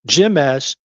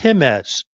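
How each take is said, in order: First: The name starts with an English J sound. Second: The name starts with an H sound. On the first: The speaker calls it wrong. "It's not Jimez" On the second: The speaker calls it right. "the J is pronounced with by the letter H"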